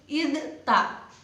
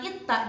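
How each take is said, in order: First: The d is pronounced clearly before the t. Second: The d merges into the following t. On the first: The speaker calls it right. "tapi harus idta. Jelas kan?" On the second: The speaker calls it wrong. "Jangan itta"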